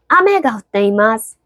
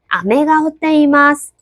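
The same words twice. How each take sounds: First: Ame has the pitch pattern of the word rain. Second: Ame has the pitch pattern of the word candy. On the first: Rain is falling now. The speaker calls it right. "지금 비가 내리고 있어요 라는 뜻" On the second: Candy is falling from the sky. The speaker calls it wrong. "음정 차이를 어떻게 해야 되는지 헷갈려서"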